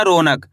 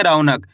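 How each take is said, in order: First: "रौनक" mispronounced as ro-nak; wrong "o" vowel. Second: "रौनक" as rau-nak, with a gliding au; correct "au" vowel. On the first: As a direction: say "रौनक" with a pure o in place of au. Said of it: "ऐसे नहीं पढ़ना रौनक". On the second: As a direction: say "रौनक" with au in the first syllable, falling at the end. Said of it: "औ करके उच्चारण निकालेंगे". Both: Shown as a demonstration.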